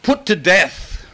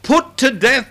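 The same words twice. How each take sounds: First: "Put to death" said slowly, each word weighted; a heavy, deliberate "Put to death"; slow emphatic reading. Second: A high, strong "Put to death"; raised emphatic reading. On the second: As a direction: launch "Put to death" with force. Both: Shown as a demonstration. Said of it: "my Bible says".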